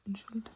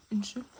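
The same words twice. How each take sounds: First: "Unnskyld" with an audible D at the end; softer "Unnskyld", ending on a hard D; D pronounced. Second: "Unnskyld" ending on the L; "Unnskyld" said as in-shill, no D; silent D. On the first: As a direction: sound the final D in "Unnskyld". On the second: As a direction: drop the final D of "Unnskyld". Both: Shown as a demonstration. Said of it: "The D is not pronounced".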